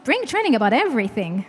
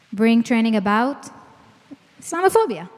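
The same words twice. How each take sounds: First: Said in the usual way. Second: Mock retort. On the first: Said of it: "And I always say". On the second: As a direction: toss it back like a reflexive rebuttal. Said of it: "what's the immediate reaction?".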